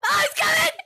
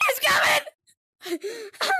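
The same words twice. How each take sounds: First: Alarmed cry. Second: Drawn-out panicked wail. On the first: Monster approaching. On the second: Warning the other players the monster is close, slow wailing cry. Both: Real, not acted.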